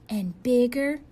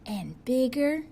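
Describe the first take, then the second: No difference in how they are said.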